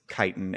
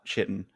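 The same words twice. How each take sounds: First: The word begins with a hard k sound. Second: The word begins with a ch sound. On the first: The speaker calls it right. "C H I is Chi. Almost certainly it's chitin" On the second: The speaker calls it wrong. "and not chitin"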